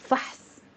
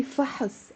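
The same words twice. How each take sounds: First: فحص as fahs, no vowel after ح; فحص as one closed syllable; strict one syllable. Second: فحص as fa-hus with a short "uh"; فحص loosened into fa-hus; easier added vowel. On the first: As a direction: run ح straight into ص in فحص. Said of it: "the actual word is". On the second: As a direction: slip a small "uh" between ح and ص in فحص. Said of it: "But if it's easier". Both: Shown as a demonstration.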